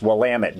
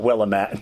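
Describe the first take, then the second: First: The name rhymes with 'damn it'. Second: The name does not rhyme with 'damn it'. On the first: The speaker calls it right. "it's Willamette, damn it" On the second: The speaker calls it wrong. "not Willamette"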